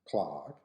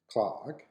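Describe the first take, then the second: First: It is said with an American accent. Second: It is said with an American accent.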